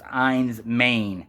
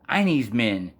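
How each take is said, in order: First: The first word has one syllable. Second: The first word has two syllables. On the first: The speaker calls it right. "it's actually pr- pronounced Ein's Main" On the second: The speaker calls it wrong. "I thought it was called Einie's Men, and I didn't understand"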